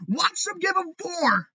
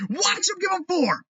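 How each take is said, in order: First: High, slow yell; furious shout. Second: High, punchy restatement; angry repeat. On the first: Fan predicting the Red Sox signing, high furious yell. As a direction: bark the prediction in disgust. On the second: Fan repeating the Red Sox prediction, high angry restatement. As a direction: drive it home again. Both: Real, not acted.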